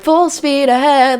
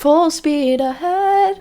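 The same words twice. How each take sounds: First: It is said firmly, like a command. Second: It is said softly, with wistful longing. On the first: He is giving an order. "like he's giving it like an order" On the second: He is yearning for something far away. "gazing longingly"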